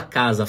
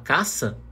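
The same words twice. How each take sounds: First: Said in the usual way. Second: Voiceless S in caça where casa has Z; mispronounced casa. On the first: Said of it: "em vez de falar casa". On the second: Shown as a demonstration. Teacher contrasting two words for learners, caça with an S. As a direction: say caça with a hissed S in the middle. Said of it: "Se eu errar a pronúncia".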